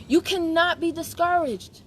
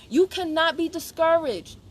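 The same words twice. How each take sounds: First: "You cannot be discouraged" drawn out, "cannot" held long; slow emphatic "You cannot be discouraged", stretching "cannot"; slower emphatic repeat. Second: "You cannot be discouraged" slowed, each word firm; emphatic. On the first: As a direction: lean hard on "cannot" with a long n. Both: Shown as a demonstration. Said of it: "repeated for emphasis".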